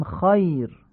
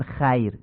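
First: 'خایر' as 'khoyr', dark back vowel; full, heavy short 'aa' in 'خایر'; heavy Arabic fatha. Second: 'خیر' as 'khayr' with thin front 'a'; Persian-style light vowel in 'خیر'; wrong light fatha. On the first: Teacher showing the Arabic reading, heavy 'خایر'. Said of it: "میگیم". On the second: Teacher showing the wrong reading, thin 'خیر'. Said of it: "نمیگیم". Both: Shown as a demonstration.

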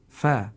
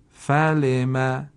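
First: Said in the usual way. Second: Slow, drawn-out word; slow model reading. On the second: Shown as a demonstration. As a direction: say it slowly for learners. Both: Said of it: "کلمهٔ بعدی".

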